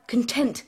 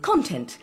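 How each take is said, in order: First: "content" as con-TENT, second syllable stressed. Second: "Content" as CON-tent, first syllable stressed. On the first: Actress corrects co-actor's content, stressed con-TENT. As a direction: put the weight of "content" on TENT. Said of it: "as we say it, meaning happiness". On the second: Actress shows co-actor his Content, stressed CON-tent. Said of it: "you put the emphasis on the first syllable". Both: Shown as a demonstration.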